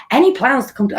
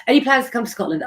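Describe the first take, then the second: First: Half-hearted stab at a Scottish accent; abandoned try at a Scottish accent; Scottish accent attempt. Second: Said in the usual way. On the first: Shown as a demonstration. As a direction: start it in a Scottish accent, then give up. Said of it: "I can't do a Sc-, uh, Scottish accent". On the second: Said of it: "Scottish accent".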